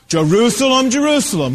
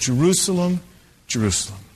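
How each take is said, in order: First: It sounds angry and vengeful. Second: It sounds sad and sorrowful.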